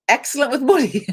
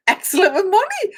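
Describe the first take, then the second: First: Said in the usual way. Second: Breaking into real laughter mid-phrase; high, giggling read you can't hold back; laughing. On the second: Real, not acted. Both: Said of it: "I don't know why I'm laughing".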